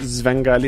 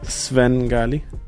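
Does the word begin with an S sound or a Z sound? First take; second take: Z sound; S sound. First: The word begins with a Z sound. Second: The word begins with an S sound. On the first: The speaker calls it wrong. "I actually say my band name wrong. I say Svengali" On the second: The speaker calls it right. "instead of Svengali"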